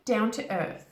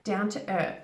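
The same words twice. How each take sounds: No difference in how they are said.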